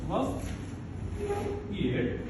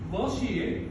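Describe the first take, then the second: First: The t and y sounds stay separate. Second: The t and y blend into ch.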